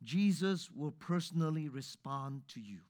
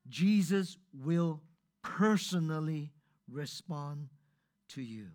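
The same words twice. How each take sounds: First: Said in the usual way. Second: "Jesus will personally respond to you" slowed, each word weighted; slow emphatic repeat. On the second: Shown as a demonstration. Preacher repeating the promise slowly for emphasis. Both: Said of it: "Listen to me one more time".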